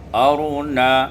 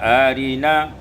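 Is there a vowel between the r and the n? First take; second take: no; yes. First: The r is closed, heavy, with no vowel. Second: A short i vowel follows the r.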